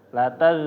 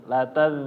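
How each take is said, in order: The two takes are said the same way.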